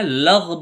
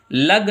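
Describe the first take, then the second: First: लग said the right way, with a clean l and g; correct lag. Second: लग said the wrong way; wrong lag. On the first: Teacher showing students the correct लग. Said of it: "लग बोलना है". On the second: Teacher showing students the wrong लग. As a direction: say लग as the mistake not to make. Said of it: "लग नहीं बोलना है". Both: Shown as a demonstration.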